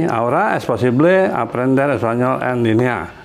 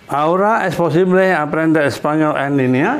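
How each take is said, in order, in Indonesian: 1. Suara turun di akhir seperti pernyataan. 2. Suara naik di akhir seperti pertanyaan.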